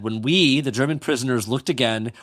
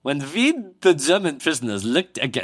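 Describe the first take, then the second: First: Put-on light German accent; reading with a hint of a German accent. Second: Hammed-up German accent; thick mock German with v for w. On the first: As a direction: quote the sailor in a mild German accent. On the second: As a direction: put on an exaggerated comic German accent. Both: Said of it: "How was my German accent".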